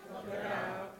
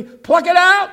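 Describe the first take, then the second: First: Said in the usual way. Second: Higher and louder call; loud call for the congregation to echo; call to repeat. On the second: Shown as a demonstration. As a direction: lead the crowd in the line. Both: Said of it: "say it with me".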